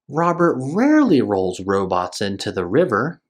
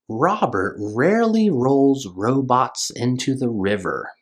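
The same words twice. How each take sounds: First: It is read a little faster. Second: It is read at a normal pace.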